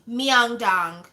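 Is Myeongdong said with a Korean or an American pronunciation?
American. The name is said with an American pronunciation. The speaker calls it wrong. "but she's like Myeongdong"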